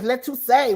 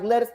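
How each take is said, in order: First: It is said as three syllables, 'let you say'. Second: It is said as two syllables, like 'let us'. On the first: It is claimed as a person's name. "My name is Let You Say" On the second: It is read as the ordinary vegetable word. "I'm like, let us"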